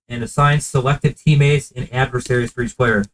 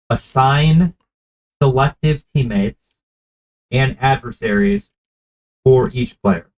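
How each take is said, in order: First: It is said at a normal speed. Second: It is said very slowly.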